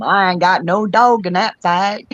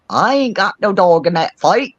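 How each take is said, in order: First: Southern drawl with a bit of England in it; English friend's attempted Southern accent. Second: Hint of English accent, pitched higher; imitated English accent. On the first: Friend tells people who want her to jump in, attempted Southern accent. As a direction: mimic an Englishwoman trying to sound Southern. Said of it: "trying to do it with a Southern accent". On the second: Friend in England repeats a borrowed saying, imitated English accent. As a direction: mimic her English friend's accent, lightly amused. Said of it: "she'll say it with her English accent".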